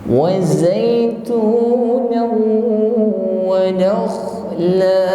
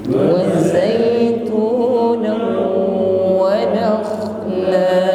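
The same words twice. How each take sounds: The two takes are said the same way.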